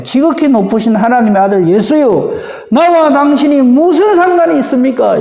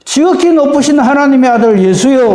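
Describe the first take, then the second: First: Mocking, grudging acknowledgement; sneering. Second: Raised voice, hailing Jesus from afar; loud proclamation. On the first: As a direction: say it with a sarcastic edge, resentful. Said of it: "비아냥거린다 그래야 될까요?". (비아냥거리며 못마땅하게) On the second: Acted. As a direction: call it out high and strong. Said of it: "큰 소리로 이렇게 말합니다". (크게 외치듯이)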